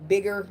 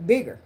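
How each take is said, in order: First: Said in the usual way. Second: Bigger said louder and higher, falling hard; stress on bigger. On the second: Real, not acted. Vlogger stressing bigger to viewers, louder repeat. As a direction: punch the word bigger up, with a little more force. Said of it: "uh, bigger".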